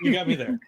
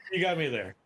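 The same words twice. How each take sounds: First: Laughing, higher and louder. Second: Said in the usual way. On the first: Real, not acted. Conceding a joke.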